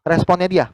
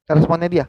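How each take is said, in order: First: Dia stressed and falling. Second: Responnya stressed and falling. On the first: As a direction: lean on the word dia. (tekanan pada kata dia) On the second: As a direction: put the weight on responnya. (tekanan pada kata responnya) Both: Shown as a demonstration.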